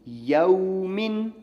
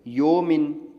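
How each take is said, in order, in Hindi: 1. स्वर 'a' से 'w' की ओर सरकता है। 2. स्वर एक स्थिर, सादा 'o' है। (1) "ये मारूफ है।" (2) "योमिन मजहूल है, गलत है।"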